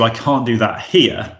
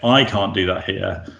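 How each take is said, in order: First: The stress is on here. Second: The stress is on I.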